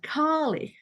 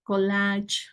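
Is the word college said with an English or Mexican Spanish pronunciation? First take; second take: English; Mexican Spanish. First: It is said with an English pronunciation. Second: It is said with a Mexican Spanish pronunciation. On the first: "here they have the pronunciation" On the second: "this word in Mexico, it is pronounced as"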